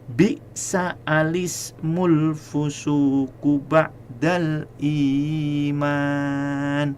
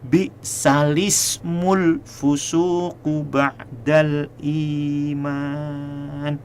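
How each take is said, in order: First: An extra 'a' is sounded before 'lismul'. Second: No extra 'a' is sounded before 'lismul'. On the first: "Ini semata-mata untuk pembelajaran" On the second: "yang biasanya adalah yang kedua tadi"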